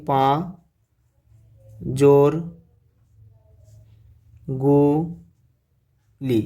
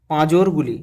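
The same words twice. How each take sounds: First: "পা জোর গু লি" said one syllable at a time with pauses; split into syllables. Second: Said in the usual way. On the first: Shown as a demonstration. Teacher showing students the syllables of পাঁজরগুলি, spaced out. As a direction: break "পাঁজরগুলি" into পা, জোর, গু, লি slowly. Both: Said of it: "এটাকে ভাঙা হোক দেখি".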